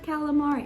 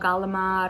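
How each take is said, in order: First: It is said with standard American sounds. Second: It is said with Italian-American dialect sounds. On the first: This is said so that others understand. "people don't understand me, so I wind up saying like" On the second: This is how the family says it at home. "I say it just as I am"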